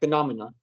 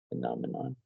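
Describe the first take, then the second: First: The syllables are run together casually. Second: Every syllable is said clearly and carefully.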